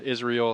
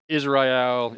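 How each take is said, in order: First: "Israel" said short as iz-reel, two syllables; quick "Israel" rhyming with reel; second pronunciation try. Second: "Israel" said as three syllables, iz-rye-el; first pronunciation try. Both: Shown as a demonstration. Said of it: "however you say his name".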